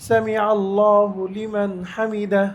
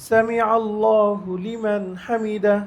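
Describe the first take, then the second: The two takes are said the same way.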